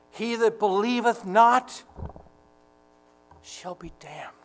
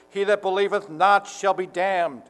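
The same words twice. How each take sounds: First: Halting, grief-struck, sinking to a whisper; heartbroken. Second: Imagined harsh condemnation, full voice. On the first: Preacher voicing tender-hearted Jesus weeping over the lost, heartbroken. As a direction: say it as though it breaks your heart, long pause, hushed ending. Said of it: "As though it broke his heart". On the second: Preacher mimicking an imagined fist-clenched Jesus condemning unbelievers, harsh voice. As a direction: pronounce it sternly, as a harsh judgment. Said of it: "a harsh voice". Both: Retold or imitated.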